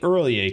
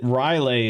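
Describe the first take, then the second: First: The name sounds like 'early ay'. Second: The name sounds like 'Riley'. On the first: The speaker calls it right. "my pronunciation of early A" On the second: The speaker calls it wrong. "Riley is like apparently the popular way to say it"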